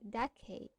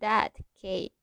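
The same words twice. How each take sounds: First: The t blends into the following k sound. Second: The t is pronounced clearly on its own. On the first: The speaker calls it right. "We say" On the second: The speaker calls it wrong. "We don't say"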